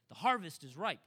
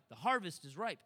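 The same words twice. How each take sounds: The two takes are said the same way.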